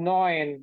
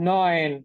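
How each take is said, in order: No difference in how they are said.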